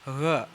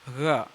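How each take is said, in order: Both takes have the same delivery.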